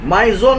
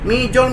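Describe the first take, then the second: First: It is pronounced like 'maison'. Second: It is pronounced like 'mijon'. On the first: The speaker calls it right. "Maison, maison, mungkin begitu ya" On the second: The speaker calls it wrong. "Jadi bukan mijon, mijon. Jangan begitu lagi"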